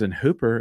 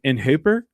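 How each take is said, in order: First: Said in the usual way. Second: Put-on "Hooper" said in a West Texas accent. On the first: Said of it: "they were like". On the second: Repeating friends' words back to them, West Texas accent. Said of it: "Why are you saying it like that?".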